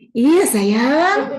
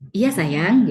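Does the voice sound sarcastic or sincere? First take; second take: sarcastic; sincere. First: It is said in a pressed, sarcastic tone. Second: It is said in a plain, warm tone. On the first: The parent is being sarcastic, not affectionate. "tapi dengan nada yang iya sayang gitu" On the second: The parent truly means the affection. "misalkan kata-katanya sih, iya nak sayang gitu ya"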